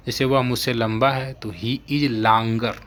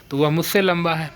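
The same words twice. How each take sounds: First: वह stressed, slow and deliberate; slow teaching emphasis on वह. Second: Teacher landing on लंबा; stress on लंबा. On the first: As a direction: lean on the word वह, then let मुझसे लंबा है fall. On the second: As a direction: hit the word लंबा and keep वह light. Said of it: "लेकिन वह मुझसे लंबा है". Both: Shown as a demonstration.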